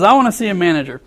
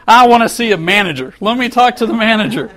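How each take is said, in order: First: Said in the usual way. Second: Complaining customer demands the manager, mock angry. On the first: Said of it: "So he says". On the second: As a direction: play the irate customer, half-hearted. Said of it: "he starts screaming again".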